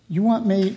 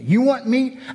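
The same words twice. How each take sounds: First: The voice sounds calm and measured. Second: The voice sounds angry and harsh. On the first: The speaker is displeased but composed. "But maybe God said it like this" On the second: The speaker is furious at the request. "If Angry John would have said it that way"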